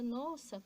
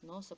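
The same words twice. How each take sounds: First: It is said with a joyful, delighted tone. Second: It is said with a frightened, fearful tone. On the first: The speaker is pleased by them. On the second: The speaker is afraid of them.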